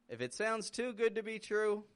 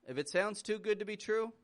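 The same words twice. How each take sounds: No difference in how they are said.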